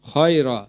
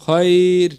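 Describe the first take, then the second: First: The word ends with an extra vowel sound. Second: The word ends on a consonant, no extra vowel. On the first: The speaker calls it wrong. "এখানে অনেকেই বলে ফেলেন খয়রা" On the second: The speaker calls it right. "এখানে বলবেন"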